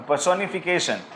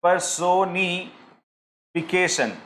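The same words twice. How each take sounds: First: Said in the usual way. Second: Slow, syllable by syllable; slow demo. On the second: Shown as a demonstration. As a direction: spell it out slowly for the class. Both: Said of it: "ये मैंने कहा".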